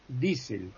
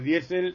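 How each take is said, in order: First: The first vowel is a single long 'ee'. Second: The first vowel glides 'ie', stressed on 'e'. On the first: This is how it is said in German. "En alemán es I" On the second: This is how everyone says it in Spanish. "todo el mundo decimos diésel"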